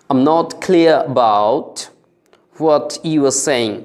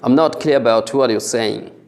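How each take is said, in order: First: The sentence is said at a slower pace. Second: The sentence is said at a fast pace.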